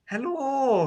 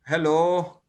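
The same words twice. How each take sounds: First: It sounds happy, with a raised voice. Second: It sounds down, with a low voice.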